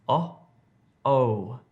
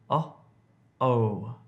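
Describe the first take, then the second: No difference in how they are said.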